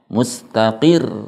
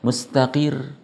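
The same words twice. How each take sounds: First: The last syllable is stressed with raised pitch. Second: The last syllable is said flat and unstressed. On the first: The speaker calls it right. "harus ditekan di sebelum huruf tasydidnya" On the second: The speaker calls it wrong. "kalau dibaca datar"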